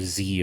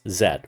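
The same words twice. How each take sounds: First: The letter is said the American way, zee. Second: The letter is said the non-American way, zed.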